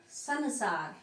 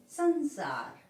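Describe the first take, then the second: First: संसार slowly as "sa-na-saar"; wrong pronunciation. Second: संसार with the first syllable hummed through the nose; nasal pronunciation. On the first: Teacher rejecting the misspelt word, संसार with a full n. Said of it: "संसार नहीं". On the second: Teacher correcting students, संसार with a nasal first syllable. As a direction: say संसार as a higher, nasal "san-saar". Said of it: "नाक से बोला जा रहा है". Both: Shown as a demonstration.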